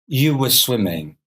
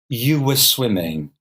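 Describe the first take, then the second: The two takes are said the same way.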